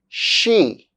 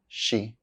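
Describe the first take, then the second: First: The word is said fully with its full vowel. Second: The word is reduced with a weak vowel. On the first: "I'll say the strong forms of the words first" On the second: "then their weak forms"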